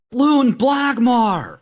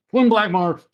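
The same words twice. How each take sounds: First: Long drawn-out high yell. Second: Muffled call behind a hand; hand over mouth. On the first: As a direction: bellow the name slowly. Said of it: "then I just yell". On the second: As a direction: call out through covered mouth. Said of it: "I put my hand over my mouth and sort of turn away and go". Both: Acted.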